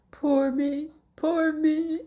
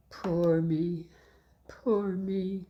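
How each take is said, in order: First: High, loud wailing cry; a high-pitched, louder wail; cried out. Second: Sighed. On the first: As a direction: cry it out so someone hears. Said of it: "cried Little Claus". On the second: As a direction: sigh it to yourself, resigned. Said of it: "sighed Little Claus". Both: Acted.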